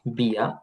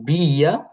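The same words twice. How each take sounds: First: "বিয়া" as one short bya; merged into one syllable. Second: "বিয়া" stretched as bi-ya, rising; unmerged syllables. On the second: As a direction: sound out both parts of "বিয়া". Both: Shown as a demonstration. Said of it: "তখন ইটা বাদ যাবে".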